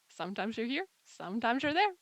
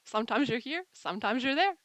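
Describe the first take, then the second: No difference in how they are said.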